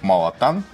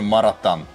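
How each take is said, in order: First: The second consonant is an L sound. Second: The second consonant is an R sound. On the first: This is the original name. "китайский суп малатан" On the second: This is the local form of the name. "здесь он везде маратан"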